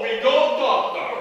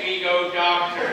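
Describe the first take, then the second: First: It is said in a put-on Russian accent. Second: It is said in the speaker's ordinary accent.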